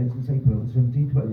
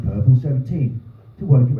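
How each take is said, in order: First: Fast mutter. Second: Lightly mimicked automated announcer voice; bus announcement. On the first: Retold or imitated. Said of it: "I know what it's gonna say". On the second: Comic shows the bus tannoy right after predicting it, lightly mimicked. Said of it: "It went".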